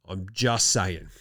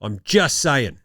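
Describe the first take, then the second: First: Low slow mutter. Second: Said in the usual way. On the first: Acted. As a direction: drop it low and slow, deadpan. Repeated line, drops low and slow.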